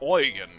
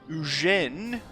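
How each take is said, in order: First: The name is said with German pronunciation. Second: The name is said with French pronunciation. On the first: "pronounce it in German" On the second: "as you say in France"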